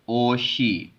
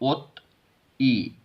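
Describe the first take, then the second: First: An sh sound starts the second syllable, linked. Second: A t sound ends the first syllable, separately. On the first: The speaker calls it right. "इसको पढ़ेंगे ओशी" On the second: The speaker calls it wrong. "अगर ये ऐसे नहीं पढ़ा जाएगा"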